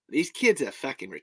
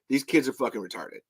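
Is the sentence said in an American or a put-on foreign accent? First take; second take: foreign; American. First: It is said in a put-on foreign accent. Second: It is said in a plain American accent. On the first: It comes across as more acceptable. "if I do it in an accent" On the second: It comes across as offensive. "let me say it as an English, as a regular American"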